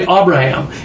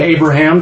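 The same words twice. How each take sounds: First: The name begins with an 'ab' sound. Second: The name begins with an 'ay' sound. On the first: The speaker calls it right. "it's actually Abraham is the correct pronunciation" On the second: The speaker calls it wrong. "we all just pronounce it Abraham"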